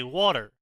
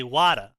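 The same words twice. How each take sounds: First: Said in the usual way. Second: Wada: the North Jersey accent's flapped t, said a bit louder. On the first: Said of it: "we say water. they say wada". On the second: Shown as a demonstration. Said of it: "they say wada".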